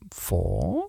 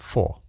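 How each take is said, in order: First: It is said as a rising question. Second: It is said as a falling statement.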